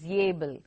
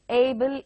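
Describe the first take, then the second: First: The word begins with a y sound. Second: The word begins with a plain vowel. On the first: The speaker calls it wrong. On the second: The speaker calls it right.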